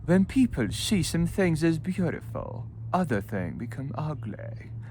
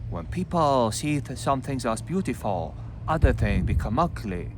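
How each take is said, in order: First: It is read in a posh English accent. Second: It is read in a Chinese accent. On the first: "Or with posh" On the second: "read with the Chinese accent"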